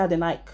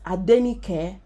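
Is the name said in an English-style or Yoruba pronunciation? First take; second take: English-style; Yoruba. First: The name is said with English-style pronunciation. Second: The name is said with Yoruba pronunciation. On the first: The speaker calls it wrong. "you don't say Adenike" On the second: The speaker calls it right. "If your name is Adenike"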